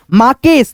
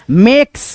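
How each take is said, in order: First: "माकेस" in two syllables, maa-kes; mispronunciation demo. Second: "मेक्स" in one syllable with ay; corrected pronunciation. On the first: Teacher shows learners the misreading of makes, two-syllable "माकेस". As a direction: read "माकेस" as spelt with long aa. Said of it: "नहीं". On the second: Teacher corrects learners on makes, one-syllable "मेक्स". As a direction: run k and s together in "मेक्स". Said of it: "इसको पढ़ेंगे माकेस नहीं". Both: Shown as a demonstration.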